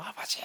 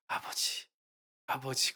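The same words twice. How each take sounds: First: Imitated wailing. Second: Soft imitation of praying before tears; hesitant retold prayer. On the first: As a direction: wail it as an imitation, without full volume. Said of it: "막 통곡을 했답니다". (통곡을 흉내 내듯 길게) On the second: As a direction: call on Father quietly, tentatively. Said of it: "그러다가 막 울음이 터진 거야". (울음 터지기 전 조심스럽게 작게)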